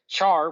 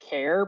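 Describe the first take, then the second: First: It starts with a ch sound, like char. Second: It rhymes with air, starting with a k sound. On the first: It follows how the word is spelled. "Char, which not a fan" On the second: It follows the start of the full word character. "the ones that I've heard are um are care because character"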